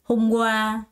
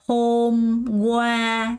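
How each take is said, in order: First: The second syllable is stressed, the first light. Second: Both syllables get equal stress. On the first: The speaker calls it right. "이렇게 과의 강세가 들어갑니다" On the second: The speaker calls it wrong. "이것도 hôm qua로 발음하는 사람 없어요"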